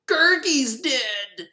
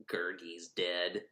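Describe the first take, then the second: First: High, slow, overwrought wail; mock grief. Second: Low, very soft, slow mournful murmur; mock sorrow. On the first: Friends mourning Gurgi, hammed-up tragic wail. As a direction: ham up the tragedy. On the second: Friends mourning Gurgi, soft fake gloom. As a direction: let it sink in with fake gloom.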